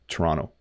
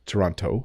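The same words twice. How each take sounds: First: The second t is softened or dropped. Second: The second t is clearly pronounced. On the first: This is how people from Ontario say it. "native Ontario English speakers really mush it down" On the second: This is how people from Britain say it. "people from Britain often say... and they make the T"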